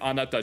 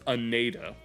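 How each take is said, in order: First: It is said with natural Japanese pronunciation. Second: It is said with a heavy American-English accent. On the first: "instead of saying anata" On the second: "she says anata"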